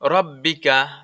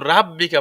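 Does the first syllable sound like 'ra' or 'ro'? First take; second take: ro; ra. First: The first syllable has a rounded 'ro' vowel. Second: The first syllable has an open 'ra' vowel. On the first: The speaker calls it right. "র বলতে হবে" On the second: The speaker calls it wrong. "রাব্বিকা বলা যাবে না"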